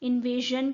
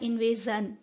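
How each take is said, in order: First: The consonant before the last syllable is 'zh'. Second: The consonant before the last syllable is 'z'. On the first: This is how the word is said today. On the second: This is how the word was said in the past.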